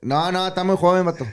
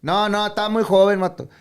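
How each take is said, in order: First: High imitated dad again; dad's voice. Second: High, loud imitated dad; dad's voice. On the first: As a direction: repeat the father's line, higher. Repeats dad's refusal. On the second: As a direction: quote the father, pitched up. Quoting dad refusing contract.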